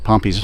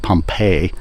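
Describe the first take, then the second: First: The name ends in a 'pee' sound. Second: The name ends in a 'pay' sound. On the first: The speaker calls it right. "That's uh, Pompey's pillar" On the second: The speaker calls it wrong. "We always say Pompeii, like uh, the Roman town in Italy"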